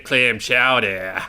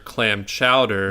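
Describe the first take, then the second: First: It is said in an imitated Boston accent. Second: It is said in a plain, non-Boston accent. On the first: The speaker is faking being a local. "imitating a Boston accent" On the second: The speaker is an outsider. "people know you're an outsider"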